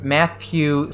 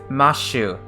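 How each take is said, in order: First: The middle consonant is a th sound. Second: The middle consonant is an sh sound. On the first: "There's no th" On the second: "Matthew Silverberg is Mashu Surabagu"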